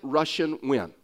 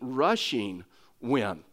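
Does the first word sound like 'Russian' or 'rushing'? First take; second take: Russian; rushing. First: The first word sounds like 'Russian' in a Texas accent. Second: The first word clearly ends in an 'ing' sound. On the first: The speaker calls it wrong. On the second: The speaker calls it right.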